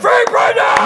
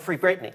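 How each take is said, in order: First: It is said loudly, with enthusiasm. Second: It is said flatly, without enthusiasm.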